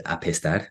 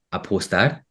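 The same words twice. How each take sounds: First: "apestar" with an e in the middle; "apestar" with e replacing the o; mistaken word. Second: "apostar" with an o in the middle; "apostar" with a clear middle o; intended word. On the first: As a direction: say "apestar" the Spanish way, a-pes-TAR. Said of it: "in my head I said". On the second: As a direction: say "apostar" the Spanish way, a-pos-TAR. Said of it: "I want to say". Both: Shown as a demonstration.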